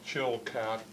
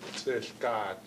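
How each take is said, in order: First: The name begins with a 'ch' sound. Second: The name begins with a 'ts' sound. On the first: This is the English form of the name. "the English was an attempt to try to pronounce the original name" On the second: This is the original name the elders used. "this is the way the old people called them"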